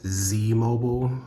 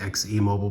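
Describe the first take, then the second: First: The first part is said as one word. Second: The first part is spelled out as letters. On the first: "you're supposed to say that Z Mobile" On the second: "just pronounce it X E Mobile"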